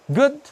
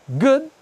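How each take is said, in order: The two takes are said the same way.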